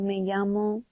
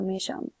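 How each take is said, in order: First: Llamo begins with a y sound. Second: Llamo begins with a sh sound. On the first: "It will be a y" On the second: "or a sh"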